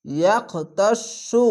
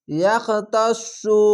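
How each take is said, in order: First: ইয়াখতাসু very slow, with the সু doubled and heavy; heavy sad recitation. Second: Slow, drawn-out Quranic recitation of ইয়াখতাসু; model recitation. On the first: Teacher repeats the word after spelling it, slow heavy recitation. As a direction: draw out ইয়াখতাসু, thickening the sad. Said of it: "সদ অক্ষরটি মোটা, মোটা করে পড়বেন". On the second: Teacher models the word for students, slow recitation. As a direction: chant ইয়াখতাসু slowly, syllable by syllable. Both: Shown as a demonstration.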